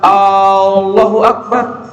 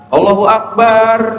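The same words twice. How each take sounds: First: The opening A sound is drawn out long. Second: The vowel in akbar is drawn out long. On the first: "kalimat A-nya yang dipanjangkan" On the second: "memanjangkan kalimat akbarnya"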